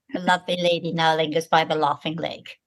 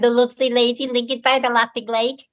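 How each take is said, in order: First: Said in the usual way. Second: Put-on higher-pitched old Liverpool accent; strong Liverpool accent. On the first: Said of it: "getting rid of the accent". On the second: Shown as a demonstration. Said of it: "I had a very strong Liverpool accent".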